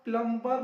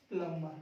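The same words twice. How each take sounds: First: प्लम्बर as "plum-bar" with the B voiced, loud; wrongly sounded B. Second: प्लम्बर as "plummer", lower, with no B; silent B. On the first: Teacher rejecting the misreading, प्लम्बर with a loud sounded B. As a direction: punch out the B in प्लम्बर. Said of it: "प्लम्बर नहीं". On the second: Teacher correcting to the right reading, प्लम्बर with silent B. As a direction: drop the B in प्लम्बर, pitch down. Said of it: "प्लम्बर बी silent हो जाएगा". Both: Shown as a demonstration.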